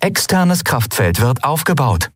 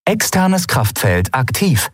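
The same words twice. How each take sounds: First: Lightly voiced machine announcement; the ship reports its shield status, mechanical; ship computer voice. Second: Slow, even machine announcement; the ship suddenly announces its shield is active; ship computer voice. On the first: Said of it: "vermeldete das Schiff erneut". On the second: Acted. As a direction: report it like an onboard computer. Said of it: "meldete die Sternenreiter unvermittelt".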